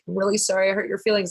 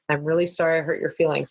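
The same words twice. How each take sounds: First: It is said in a crazy, goofy voice. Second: It is said in a normal voice.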